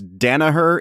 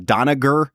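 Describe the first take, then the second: First: The name is said without a hard G sound. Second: The name is said with a hard G sound.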